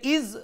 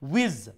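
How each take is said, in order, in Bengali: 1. শব্দটি গলা থেকে আসা স্বরধ্বনি দিয়ে শুরু হয়। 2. শব্দটি ঠোঁট গোল করে উচ্চারিত w ধ্বনি দিয়ে শুরু হয়। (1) "এখানে ইজ যদি সাউন্ড হয় তাহলে হামজার উচ্চারণ হয়ে যায়" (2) "ওয়াও উচ্চারণ হয় ঠুট থেকে"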